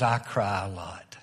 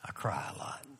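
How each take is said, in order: First: Plain. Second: Whispered, choked and very soft; a friend's tearful confession, whispered low; broken whisper. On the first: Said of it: "He says". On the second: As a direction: let it fall to a near-silent whisper of grief. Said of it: "This man is sobbing". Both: Retold or imitated.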